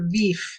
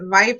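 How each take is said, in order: First: The vowel is a long 'ee' sound. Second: The vowel is a long 'eye' sound. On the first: "E sound" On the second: "I sound"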